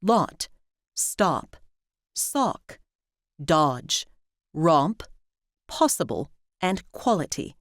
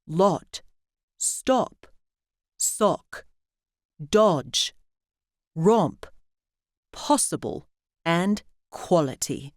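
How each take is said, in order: First: American "ah" of "father" in "lot", "stop", "sock"; "lot, stop, sock" the American way, vowel as in "palm"; American open AH. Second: British rounded O in "lot", "stop", "sock"; "lot, stop, sock" the British way, not with an American "ah"; British short O. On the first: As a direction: say "lot", "dodge", "possible" with an unrounded open "ah". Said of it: "In American English, we also use it in words like". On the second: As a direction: round the lips for a short British vowel in "lot", "dodge", "possible". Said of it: "Brits also use this vowel in words like".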